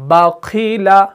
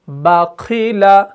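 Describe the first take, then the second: First: The first syllable is pronounced light and thin. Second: The first syllable is pronounced light and thin.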